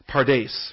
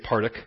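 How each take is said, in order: First: The word ends with an s sound. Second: The word ends with a hard k sound. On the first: The speaker calls it right. "It's a s sound" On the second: The speaker calls it wrong. "don't look at it and say partic. It's not a hard k sound"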